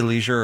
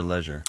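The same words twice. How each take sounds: First: "leisure" with a long ee, LEE-zher; long-e pronunciation. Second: "leisure" with a short e, LEH-zher; short-e pronunciation. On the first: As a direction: say "leisure" to rhyme with seizure. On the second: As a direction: say "leisure" to rhyme with measure. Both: Shown as a demonstration. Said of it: "You say leisure or leisure?".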